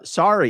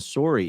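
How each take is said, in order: First: The word is said in an American accent. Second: The word is said in a Canadian accent. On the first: "sorry equals American" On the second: "Sorry equals Canadian"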